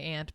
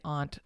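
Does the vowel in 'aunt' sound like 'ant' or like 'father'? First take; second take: like ant; like father. First: The vowel sounds like the one in 'ant'. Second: The vowel sounds like the one in 'father'. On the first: It sounds the same as the insect. The speaker calls it wrong. "I used to say aunt" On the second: It is distinct from the insect. The speaker calls it right. "now I try to say aunt since that's, I think, the proper way to say it"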